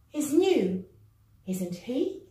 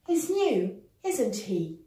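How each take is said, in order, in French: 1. La hauteur monte à la fin de la question-tag. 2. La hauteur descend à la fin de la question-tag. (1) "intonation montante" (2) "Intonation descendante pour la première phrase"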